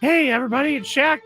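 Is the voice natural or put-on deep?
natural. It is said in a natural voice.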